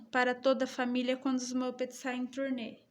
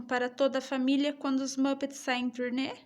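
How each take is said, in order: First: "turnê" falling at the end as a statement; a quick, soft statement that ends on a fall; statement intonation. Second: "turnê" lifted at the end as a question; a quick question tune, rising at the end; question intonation. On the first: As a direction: close the sentence with a falling "turnê". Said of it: "É uma afirmação". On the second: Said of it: "Tem sinalzinho de interrogação aqui?". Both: Shown as a demonstration.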